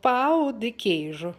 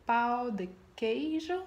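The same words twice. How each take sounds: First: "pão de queijo" said firmly, in Brazilian style; corrected pronunciation. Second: "pão de queijo" said unsurely, rising at the end; tentative pronunciation. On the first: Acted. Brazilian friend corrects the host, confident "pão de queijo". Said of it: "please correct me". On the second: Real, not acted. Host unsure of her friend's dish name, tentative "pão de queijo". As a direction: try "pão de queijo" with a questioning lift. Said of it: "I don't know if I'm pronouncing it right".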